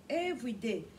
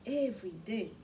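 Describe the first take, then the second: No difference in how they are said.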